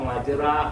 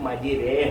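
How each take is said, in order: First: The vowel after the r sounds like a. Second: The vowel after the r sounds like e. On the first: The speaker calls it wrong. "എഴുതിയേക്കുന്ന മജ്റാഹ എന്നാണ്" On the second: The speaker calls it right. "പറയേണ്ടത് മജ്രേഹ എന്നാണ്"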